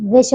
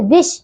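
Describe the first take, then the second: First: Said in the usual way. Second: विष said as a mistaken version; wrong form. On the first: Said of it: "विष होता है". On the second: Shown as a demonstration. Teacher showing pupils the error, विष mispronounced. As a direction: give the faulty sounding of विष. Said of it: "विष नहीं".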